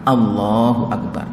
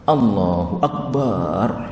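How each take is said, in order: First: No vowel is drawn out. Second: The vowel in bar is drawn out.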